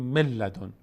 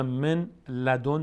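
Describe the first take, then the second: First: من لدن said mel-ladon, doubled l; merged idgham. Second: من لدن as two words, n sounded; unmerged nun. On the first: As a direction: drop the n of من into a long l. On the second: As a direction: clear n in من before لدن. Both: Shown as a demonstration.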